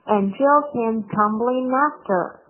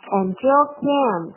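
First: Said in the usual way. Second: Slowly, and reduced to a light en; slow demo, weak and. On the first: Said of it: "came，came". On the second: Shown as a demonstration. Teacher models the weak and for the class, slowly. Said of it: "and同样是一个弱读的词".

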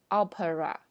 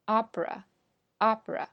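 First: Opera in three syllables, AH-puh-ra; wrong full form. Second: Opera slowly as AH-pruh; American two-syllable form. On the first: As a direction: keep a vowel after the p in opera. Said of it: "而不是opera". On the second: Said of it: "在美式英语中会读成". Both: Shown as a demonstration.

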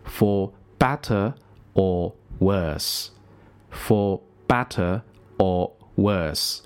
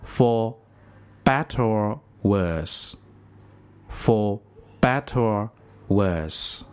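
First: For better or worse said slowly word by word; slow careful read. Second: Better and or run together, er gliding into or; linked for better or worse. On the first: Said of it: "我们来连一遍". (慢慢清楚地念For better or worse) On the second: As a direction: link better or into one sound. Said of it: "我们来听一下". (把better和or连读) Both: Shown as a demonstration.

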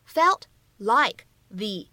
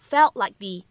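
First: Said in the usual way. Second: "felt like the" joined, final stops held, "the" as "thee"; words run together. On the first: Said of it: "那么此时放在一起". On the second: Shown as a demonstration. Teacher showing learners "felt like the" read together, linked. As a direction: link "felt like the" smoothly, ending on "thee". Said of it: "我们可以怎么样去读呢".

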